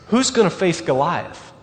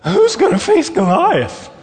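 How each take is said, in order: First: It is said in the speaker's normal voice. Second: It is said in a cracking, pubescent boy's voice.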